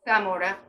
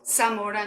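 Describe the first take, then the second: First: The first sound is a lisped th. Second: The first sound is a hissing s. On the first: "with a lisp if you're from Spain" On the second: "in Spanish"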